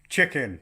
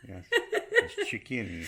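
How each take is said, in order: First: Sudden loud, higher blurt; random blurted word. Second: Put-on French accent. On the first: Acted. Example of randomly saying French words in English, random loud blurt. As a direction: blurt it out like a complete idiot. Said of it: "just randomly saying". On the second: English word said in hope it's French, mock French accent. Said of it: "put a French accent on".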